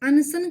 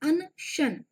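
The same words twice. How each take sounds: First: The middle consonant is a plain 's' sound. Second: The middle consonant is an 'sh' sound. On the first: This is the everyday derived form of the word. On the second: This is the original Sanskrit form of the word.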